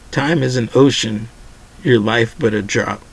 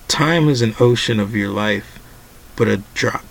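First: The pause comes after 'ocean'. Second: The pause comes after 'life'. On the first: Time is vast, and a life is only a small drop in it. The speaker calls it right. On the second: Time is an ocean of one's life, yet only a drop. The speaker calls it wrong.

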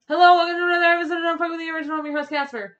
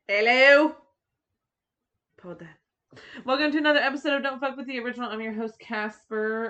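First: It is said very fast, like an auctioneer. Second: It is said at a normal pace.

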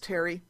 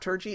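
First: The name is pronounced like 'Terry'. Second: The name is pronounced like 'Turgi'. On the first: The speaker calls it right. "it's Terry" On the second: The speaker calls it wrong. "It's not Turgi"

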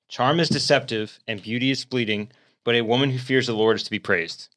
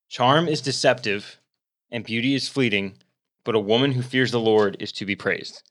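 First: It is read at a normal pace. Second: It is read a little slowly.

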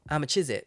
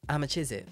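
First: The words are in a Leicester accent. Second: The same.

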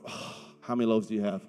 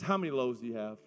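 First: It is said in a weary, exasperated tone. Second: It is said in a plain, neutral tone.

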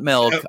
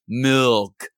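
First: The word has a New Mexico pronunciation. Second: The word has a standard pronunciation. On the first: The speaker calls it wrong. "It's a New Mexico thing" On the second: The speaker calls it right.

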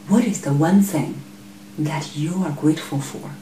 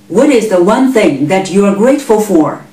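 First: The question is asked in a lower voice. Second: The question is asked in a loud voice. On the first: Listeners feel invited to reflect. The speaker calls it right. "Here is the lower voice" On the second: Listeners feel pushed and less willing to answer. The speaker calls it wrong. "Here is the loud voice"

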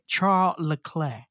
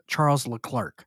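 First: The name is said with a British pronunciation. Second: The name is said with an American pronunciation. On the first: "the Brits say" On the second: "the American pronunciation is"

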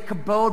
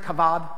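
First: The middle consonant is a b sound. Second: The middle consonant is a v sound. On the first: This is how English speakers usually say it. "We would say kabod" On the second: This is how Hebrew speakers said it. "but the Hebrews would pronounce it kavod"

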